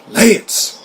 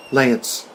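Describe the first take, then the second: First: High, incredulous echo of a name; acted disbelief. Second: Said in the usual way. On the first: Co-star reacts to hearing the name Lance, incredulous. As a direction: repeat the name as if you misheard, pitched up. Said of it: "What the fuck did I just hear".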